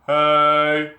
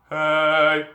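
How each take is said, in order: The two takes are said the same way.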